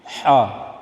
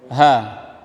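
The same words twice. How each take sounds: First: The h is tight, from deep in the throat. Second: The h is a plain, light breath. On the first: The speaker calls it right. "Ha di tengah tenggorok tenggorokan" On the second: The speaker calls it wrong. "bukan huruf ha"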